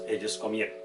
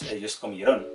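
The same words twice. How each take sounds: First: The stress is on the second-to-last syllable. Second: The stress is on the last syllable. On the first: The speaker calls it right. "sino decimos" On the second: The speaker calls it wrong. "le ponemos tilde en on"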